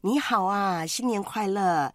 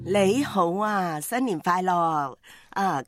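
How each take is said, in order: First: The greeting is spoken in Mandarin. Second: The greeting is spoken in Cantonese.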